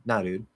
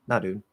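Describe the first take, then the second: Both takes have the same delivery.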